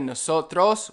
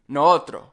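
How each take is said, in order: First: Both s sounds are clearly pronounced. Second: Both s sounds are dropped. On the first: "instead of nosotros" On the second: "we'll cut both s's"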